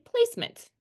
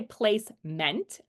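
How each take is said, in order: First: Placement glided through as "PLACE-mint"; natural schwa pronunciation. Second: Placement as "place-MENT" with a clear eh, rising; full-vowel mispronunciation. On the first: Teacher showing what she does say, placement as "PLACE-mint". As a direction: reduce the end of placement to "mint", falling. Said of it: "I just glide through that word". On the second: Teacher showing what she doesn't say, "place-MENT" for placement. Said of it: "the mint instead of the ment". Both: Shown as a demonstration.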